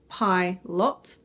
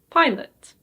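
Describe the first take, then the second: First: The second vowel is a full O sound. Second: The second vowel is a weak schwa sound. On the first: The speaker calls it wrong. "Did you say pilot?" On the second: The speaker calls it right. "The O in this word is actually pronounced as a schwa"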